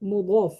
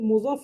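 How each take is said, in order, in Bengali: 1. মাঝের ব্যঞ্জনটি d-এর মতো শোনায়। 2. মাঝের ব্যঞ্জনটি z-এর মতো শোনায়। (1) "এখানে শব্দটা মূলত মুদফ, মিম দদ আলিফ ফা" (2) "প্রচলিত ভাষা বলতে আমরা পড়তে পড়তে মুজফ হয়ে যায়"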